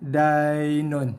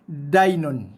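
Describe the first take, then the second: First: The 'ai' sound is soft and smooth. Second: The 'ai' sound is hard, not smooth. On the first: The speaker calls it right. "kita baca dengan lembut dan lunak" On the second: The speaker calls it wrong. "Tak nak dibaca dengan"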